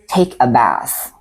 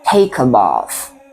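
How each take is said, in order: First: It is said in an American accent. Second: It is said in a non-American accent.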